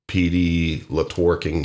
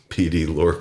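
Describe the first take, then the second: First: The digit is read aloud as 'two'. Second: The digit is silent, said as 'Lork'. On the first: The speaker calls it wrong. "there's no P D Latworking here" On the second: The speaker calls it right. "it is P D Lork is the pronunciation"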